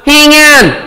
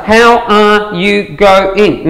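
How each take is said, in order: First: "Hang on" high, then falling; two-tone Aussie contraction. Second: Very slow, word by word; drawn-out full syllables. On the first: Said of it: "Two tones". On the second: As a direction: spell out HOW ARE YOU GO-ING syllable by syllable. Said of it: "What else?". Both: Shown as a demonstration.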